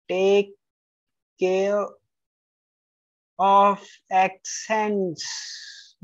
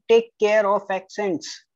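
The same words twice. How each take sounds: First: "Take care of accents" said slowly, one word at a time with pauses. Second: Said in the usual way. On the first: Shown as a demonstration. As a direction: space out each word of "Take care of accents" to drive it home. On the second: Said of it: "Take care of accents (slow repeat)".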